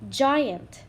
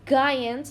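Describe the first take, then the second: First: The word begins with a soft J sound. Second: The word begins with a hard G sound. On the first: The speaker calls it right. "We say j, j, giant" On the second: The speaker calls it wrong. "We don't say g, giant. That's wrong"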